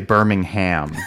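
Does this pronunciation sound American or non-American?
American. It is said in an American way. The speaker calls it wrong. "You don't say Birmingham. I think that's very American"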